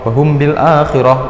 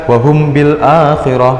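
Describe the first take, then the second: No difference in how they are said.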